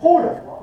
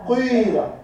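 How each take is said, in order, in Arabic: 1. الحركة الأولى صوت u خالص. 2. الحركة الأولى مزيج من صوتي u وi. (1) "والضم؟" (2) "والإشمام المركب من الضم والكسر"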